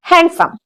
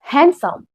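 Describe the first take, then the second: First: Handsome with the d sounded, HAND-sum; wrong, d sounded. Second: Handsome said as HAN-sum, no d; silent d. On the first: Teacher tests learners with the common mistake, d sounded in हैंडसम. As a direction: say हैंडसम with a clear d in the middle. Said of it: "वहां पे डी silent होता है". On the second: Teacher gives learners the correct word, d silent in हैंडसम. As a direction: say हैंडसम without any d sound. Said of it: "इसको हम बोलते हैं". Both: Shown as a demonstration.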